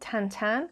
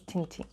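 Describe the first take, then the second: First: The vowels sound like the 'a' in tan. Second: The vowels sound like the 'i' in tin. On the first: This is how people locally call it. The speaker calls it wrong. "Here we call it Tan Tan" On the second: This is the proper way to say it. The speaker calls it right. "I think the correct pronunciation is Tintin"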